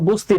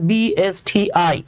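First: It is read as a single word. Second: It is read out letter by letter. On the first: The speaker calls it wrong. "বাবারে এটা তো বস্তি না" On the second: The speaker calls it right. "এটা উচ্চারণ করতে হয় BSTI"

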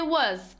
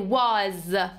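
First: The vowel is reduced to a weak schwa. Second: The vowel is full and clearly pronounced. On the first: The speaker calls it right. "we say was" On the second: The speaker calls it wrong. "we wouldn't say was"

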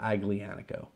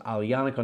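First: The G sound is pronounced in the word. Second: The G sound is silent in the word. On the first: The speaker calls it wrong. "not Aglianico" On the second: The speaker calls it right. "you don't pronounce the G. That's why it's Aglianico"

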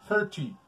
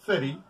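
First: It is said with a British English accent. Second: It is said with an American English accent. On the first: "en inglés británico" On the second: "se dice en inglés americano"

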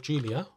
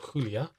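First: The name is pronounced the English way. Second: The name is pronounced the Spanish way.

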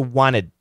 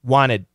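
First: The T after the N is dropped entirely. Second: The T after the N is dropped entirely.

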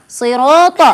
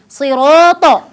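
The two takes are said the same way.

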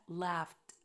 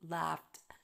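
First: The ending is said lightly, like a 't'. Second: The same.

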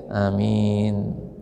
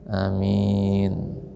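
First: The first vowel is short, the m is single. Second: The same.

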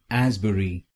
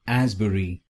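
First: It is said with a British accent. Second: The same.

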